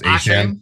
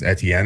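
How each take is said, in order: First: The name is said as Achane. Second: The name is said as Etienne. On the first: "now he says it's, it's pronounced Achane" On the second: "I don't know if I'm going to be able to say his name right"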